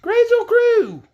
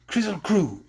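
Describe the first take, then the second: First: High, loud, slow call. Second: Said in the usual way. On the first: Acted. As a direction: shout the magic words high. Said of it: "Scraps called out". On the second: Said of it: "Then Ojo said".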